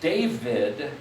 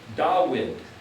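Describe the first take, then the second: First: The middle consonant is a V sound. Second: The middle consonant is a W sound. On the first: This is the later way of saying it. "the V sound didn't happen until later on" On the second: This is the ancient way of saying it. "the ancient way of speaking this was more of a oo sound"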